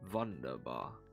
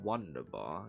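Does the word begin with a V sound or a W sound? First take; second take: V sound; W sound. First: The word begins with a V sound. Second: The word begins with an English W sound. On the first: The speaker calls it right. "the W is pronounced as a V" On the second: The speaker calls it wrong. "So it's not Wunderbar"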